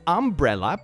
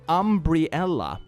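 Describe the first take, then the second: First: It is said like the ordinary word umbrella. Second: An extra 'ee' sound follows the 'br'.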